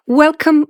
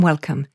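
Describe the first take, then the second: First: Bright welcome. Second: Settling welcome. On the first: Host opening the podcast, a high, loud welcome. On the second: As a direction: let the welcome land gently downward. Host greets listeners, triple welcome. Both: Real, not acted.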